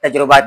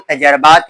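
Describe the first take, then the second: First: The vowel after the j is 'u'. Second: The vowel after the j is 'a'. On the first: The speaker calls it wrong. "तजुर्बात नहीं" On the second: The speaker calls it right. "वो तजर्बात है या तजरिबात है"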